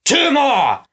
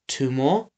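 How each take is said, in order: First: High-pitched commanding shout; bellowed. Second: Said in the usual way. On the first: A narrator's reading. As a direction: bellow the count to your henchmen. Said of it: "Snatcher bellowed".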